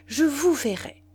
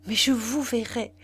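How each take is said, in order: First: Vous pushed higher, more urgent, falling end; rising insistence. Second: Firm stress on vous in verrai, falling end; insistent. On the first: Suitor repeating his vow, more urgent and higher. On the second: Suitor insisting he will see her, firm. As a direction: press the promise home. Pressing his plea repeatedly. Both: A narrator's reading.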